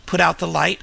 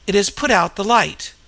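First: Understated disbelief, lifting at the end; mildly cried question. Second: "put out the light" stated, pitch dropping at the end; falling statement. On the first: Narrator echoing the signalman's news, as a mildly cried question. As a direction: echo it as a rising question. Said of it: "I cried". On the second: Frightened signalman reporting to his companion, as a falling statement. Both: A narrator's reading.

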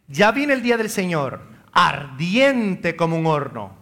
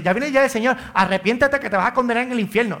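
First: Measured scripture reading, slowing on ardiente; reading Malachi. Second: Brisk, slightly raised mock fire-and-brimstone sermon; hint of a threatening street preacher; mock hellfire preacher. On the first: Shown as a demonstration. Priest reading Malachi to parish, calm scripture reading. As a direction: read it plainly as the prophet wrote it. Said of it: "Sigue diciendo Malaquías". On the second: Mocking preachers who threaten hell, lightly raised doom warning. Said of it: "No dice así".

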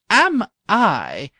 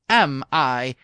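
First: Higher, louder eager cry; king crying out that he loves golf; cried out. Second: King repeating his cry before breaking off; repeated cry. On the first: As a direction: burst out with joy. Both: A narrator's reading. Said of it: "cried the king".

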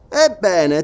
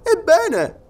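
First: EBBENE in mid pitch, leading into an answer; answering echo. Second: EBBENE pitched very high as a question; questioning prompt. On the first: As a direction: take up "ebbene" as a statement, no questioning lift. Sergeant takes up the word. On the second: Listener prompts sergeant to go on. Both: Acted.

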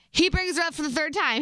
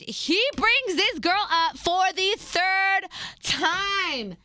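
First: "third time" said high, without dragging it out; emphatic repeat. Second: "third time" stretched out slowly, pitched high; drawn-out exasperation. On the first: Girlfriend restating the complaint for the listeners, emphatic repeat. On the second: Girlfriend fed up that he mentions her repeatedly, drawn-out exasperation. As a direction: drag out every word up to "third time", voice raised in pitch. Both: Real, not acted.

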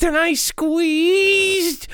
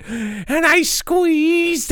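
First: Slow, drawn-out menace; slow dramatic. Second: Slow dramatic. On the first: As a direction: savor each word slowly. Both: Acted. Dramatic retelling.

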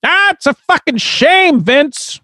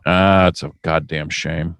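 First: Very high, squealed mock lament; high put-on voice. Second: Quiet, low-pitched regret; low lament. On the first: Co-host laments an injury to Vince, high put-on voice. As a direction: squeal it in a character falsetto. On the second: Acted. Co-host reacts to training injuries, low lament. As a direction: say it low and subdued.

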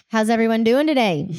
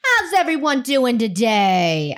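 First: Cheesy presenter. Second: Slow, hammed-up crowd greeting; milk the hello like a cheesy host; over-the-top presenter. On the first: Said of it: "Come on, you can do better". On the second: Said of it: "we can do better than that". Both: Shown as a demonstration.

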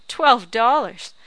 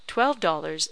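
First: Slow, much louder scoffing repeat; scornful shout. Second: Said in the usual way. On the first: A narrator's reading. Old woman mocks the husband's offer, loud and slow. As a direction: throw the sum back with contempt.

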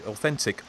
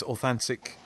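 First: Said in the usual way. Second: "authentic" with a flat "a" in the middle, authantic; slip on "authentic". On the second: Real, not acted. Host misreading listener email aloud, "authentic" slipped to "authantic". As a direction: misread "authentic" as "au-THAN-tic". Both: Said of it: "sorry, authentic".

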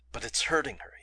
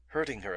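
First: Hushed, breathy whisper on "But it's hurting her"; voiceless worried whisper; muttered whisper. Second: "Hurting her!" thrown back in disbelief; indignant exclamation; exclaimed. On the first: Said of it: "he muttered". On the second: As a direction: snap the words back incredulously. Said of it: "exclaimed Ventnor". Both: A narrator's reading.

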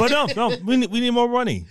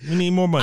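First: Mock greedy studio. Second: Said in the usual way.

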